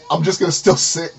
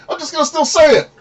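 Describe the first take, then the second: First: Said in the usual way. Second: Much higher voice. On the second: Retold or imitated. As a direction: quote jumps up in pitch, squeaky. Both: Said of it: "But then there's moments I'm like".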